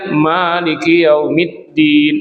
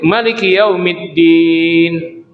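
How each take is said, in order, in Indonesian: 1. Vokal pertama 'ma' dibaca panjang. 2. Vokal pertama 'ma' dibaca pendek. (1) "ma-nya panjang" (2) "Ada kiraan yang lain"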